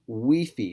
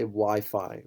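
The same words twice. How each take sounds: First: Wi-Fi is pronounced with Spanish sounds. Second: Wi-Fi is pronounced with English sounds. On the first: "Wi-Fi if you pronounce it in Spanish" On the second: "We say Wi-Fi, right, in English"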